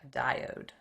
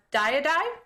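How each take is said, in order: First: "A diode." said properly as "die-ode"; corrected pronunciation. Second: "diode?" said as "tie-uh-die", with the ending wrongly stressed; mispronounced word. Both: Shown as a demonstration. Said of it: "Wrong pronunciation".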